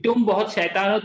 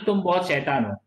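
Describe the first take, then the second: First: Affectionate teasing with a lifted ending; talking nicely. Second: Mildly harsh, lower with a falling end; harsh scolding. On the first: Teacher voicing first picture, nice tone. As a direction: say it nicely, as to someone you are fond of. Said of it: "she is talking very nicely". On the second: Teacher voicing second picture, harsh tone. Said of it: "harsh voice". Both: Shown as a demonstration.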